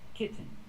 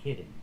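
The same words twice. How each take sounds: First: The T is fully released before the N. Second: The T is a quick D-like flap. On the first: The speaker calls it right. "I can make the real T and say kit, t, t, kitten. This is also correct" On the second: The speaker calls it wrong. "but never say kitten"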